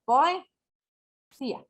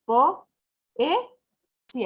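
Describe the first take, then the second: First: "poesía" drawn out slowly, with "oe" glided together; slow "poesía" with "oe" merged into one syllable; one-syllable glide. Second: "Po, e, sí" said as three separate beats; "Po, e, sí" pronounced syllable by syllable; split syllables. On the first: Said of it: "suele pronunciarse como una sola sílaba". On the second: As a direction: break "Po, e, sí" cleanly apart. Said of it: "Se pronuncian por separado". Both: Shown as a demonstration.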